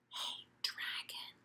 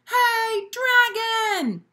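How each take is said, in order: First: It is whispered very softly. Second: It is shouted very loudly.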